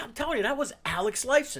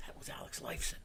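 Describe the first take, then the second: First: Higher, louder insistent call-out; insist, loud enough to be overheard. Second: Hushed, breathy whisper; retold whisper. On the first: Retold or imitated. Friend insisting to doubting buddy, loud and high. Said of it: "And he said it loud". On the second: Friend whispering to buddy on the street, hushed whisper. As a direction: lean in and whisper it so he won't hear.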